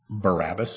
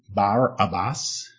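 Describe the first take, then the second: First: The name is said in the usual English way. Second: The name is said the way Hebrew would.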